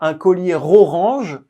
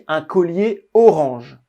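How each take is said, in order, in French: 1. Collier se lie à orange avec un son R. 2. Collier et orange se disent sans liaison. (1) "On ne dit pas" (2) "On dit"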